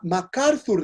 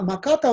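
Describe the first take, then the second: First: The name is said the Western way, as MacArthur. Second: The name is said the Japanese way, as Makata. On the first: This is the original form of the name. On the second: This is the form local people use.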